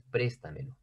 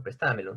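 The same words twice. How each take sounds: First: "préstamelo" stressed on the first syllable: PRÉStamelo; stress on PRES. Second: "préstamelo" stressed on TA: presTÁmelo; voseo stress. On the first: Teacher giving students the form for this case, "préstamelo" stressed on PRES. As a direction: hit PRES in "préstamelo", rest unstressed. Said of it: "Porque la tonicidad está en pres". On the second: Teacher illustrating Argentine voseo, "préstamelo" stressed on TA. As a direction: move the beat of "préstamelo" to TA, Argentine-style. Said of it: "sería en el caso de voceo, como utilizan en Argentina".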